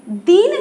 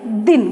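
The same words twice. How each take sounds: First: दीन with a long, stretched ee; दीन said with a long ee vowel; wrong long vowel. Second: दिन said low with a short i vowel. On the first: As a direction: hold the ee in दीन, as the misreading. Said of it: "दीन नहीं पढ़ेंगे". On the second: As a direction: keep the i in दिन brief. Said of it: "जो धीमे से बोलते हैं". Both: Shown as a demonstration.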